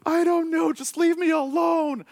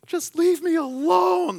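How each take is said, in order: First: High, loud, slow mock shout; hammed-up daughter yelling at dad; imitating upset daughter. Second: High, loud, slow mock teen wail; hammed-up daughter telling dad to go away; imitating daughter. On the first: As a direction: wail it like a tearful kid pushing dad off. Crying daughter pushes dad away. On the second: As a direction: throw the line out like a huffy kid. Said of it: "the great, you know, teenage line".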